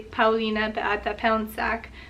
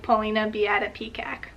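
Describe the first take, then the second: First: The name is pronounced with Polish sounds. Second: The name is pronounced with English sounds. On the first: "in Polish it would be" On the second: "which sounds nothing like"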